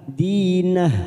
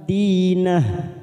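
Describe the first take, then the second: The two takes are said the same way.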